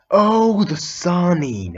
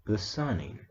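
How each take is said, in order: First: High, loud burst of recognition, the Sannin stretched slowly; sudden realization. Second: Quiet awed murmur. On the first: Naruto realizing who the stranger is, loud surprised cry. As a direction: gasp out "the Sannin!" as it dawns. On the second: Naruto repeats the title, awed. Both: Retold or imitated.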